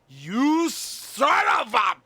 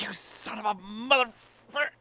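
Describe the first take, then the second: First: High, slow, drawn-out yell; hammed-up shout of fake outrage; loud stretched-out insult; mock outraged yell. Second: Toned-down mock insult. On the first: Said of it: "although I really wasn't that". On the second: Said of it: "I can't be that".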